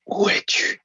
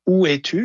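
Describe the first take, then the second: First: It is said in a breathy whisper. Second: It is said in a normal speaking voice.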